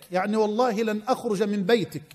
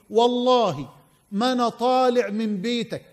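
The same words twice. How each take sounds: First: Said in the usual way. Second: Put-on old man's vow in Egyptian colloquial; Egyptian dialect. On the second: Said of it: "باللهجة المصرية يقول له".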